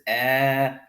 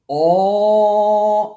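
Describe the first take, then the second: First: The long vowel is light and thin. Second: The long vowel is heavy, with a full mouth. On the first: The vowel follows a light letter. "I'm going to pronounce this elongation light" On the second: The vowel follows a heavy letter. "I'm going to hold that elongation with a full mouth"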